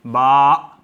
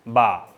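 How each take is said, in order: First: बा cut off hard with a catch, the hamza, at the end; wrong way, glottal stop. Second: बा drawn out slowly, the voice released open; right way, long aa. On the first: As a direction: show the mistake: बा snapped shut. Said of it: "यूँ नहीं पढ़ेंगे". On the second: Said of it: "थोड़ा सा लंबा करेंगे और आवाज़ को छोड़ देंगे". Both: Shown as a demonstration.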